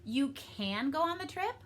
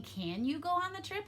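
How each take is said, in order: First: "can" stressed as if telling. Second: "Can" raised high at the start, as a question; a clear question opening on a high "Can"; asking a question. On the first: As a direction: lean on the word "can". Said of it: "Am I telling you". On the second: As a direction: ask it, lifting "Can". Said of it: "I'm asking a question". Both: Shown as a demonstration.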